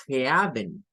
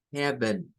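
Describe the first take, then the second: First: "heaven" read with the ea vowel as spelled; wrong "heaven". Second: "heaven" as eben, with a short e; English "heaven". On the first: Teacher showing the reading to avoid. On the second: Teacher modelling the right "heaven". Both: Shown as a demonstration. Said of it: "No es ea".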